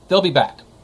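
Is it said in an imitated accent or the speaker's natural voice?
natural voice. It is said in the speaker's ordinary voice.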